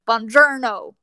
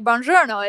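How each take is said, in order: First: Buongiorno with hard, flat American R's; American accent. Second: Said in the usual way. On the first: Retold or imitated. Mimicking the movie hero's Italian, thick American accent. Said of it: "that American accent". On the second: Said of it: "usually he doesn't say".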